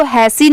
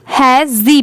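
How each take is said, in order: First: Wrong S sound in hassi. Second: S turned to Z in hezi. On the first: Teacher showing the wrong reading, hassi with S. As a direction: say hassi with an unvoiced S. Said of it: "इसको हैसी नहीं". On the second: Teacher correcting the reading, hezi with Z. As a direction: say hezi with a buzzing Z. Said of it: "स की sound जी हो जाएगी". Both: Shown as a demonstration.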